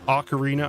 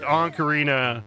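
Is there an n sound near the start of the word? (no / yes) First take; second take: no; yes. First: No n sound follows the first vowel. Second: An n sound follows the first vowel. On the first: The speaker calls it right. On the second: The speaker calls it wrong.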